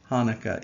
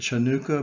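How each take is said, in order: First: The word begins with a plain h sound. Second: The word begins with a sounded C consonant. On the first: The speaker calls it right. "It is still pronounced Hanukkah, even with the C in front of it. The C is just silent" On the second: The speaker calls it wrong. "you might want to pronounce it Chanukah, but that would be wrong"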